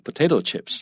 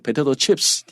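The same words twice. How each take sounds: First: The stress is on the first word. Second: The stress is on the second word. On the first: The speaker calls it right. "重音在前面啊，这在 potato 上面" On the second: The speaker calls it wrong. "听起来也是很奇怪"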